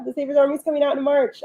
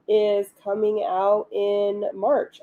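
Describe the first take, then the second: First: Higher, fast and thrilled; excited. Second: Said in the usual way. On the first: Shown as a demonstration. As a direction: rush it out, bubbling over.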